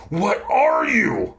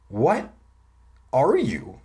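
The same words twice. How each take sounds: First: High, drawn-out cry. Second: Halting, word-by-word question; asking slowly. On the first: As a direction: cry the question out, pitch way up. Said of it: "I cried out". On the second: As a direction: leave a long gap after the first word. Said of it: "I asked slowly". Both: A narrator's reading.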